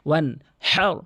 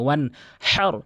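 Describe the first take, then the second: The two takes are said the same way.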